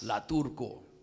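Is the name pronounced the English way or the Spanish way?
Spanish. The name is pronounced with Spanish sounds. It suits speaking in a Spanish-language church. "I never say it like that"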